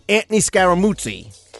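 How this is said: The name is said in a New Jersey accent.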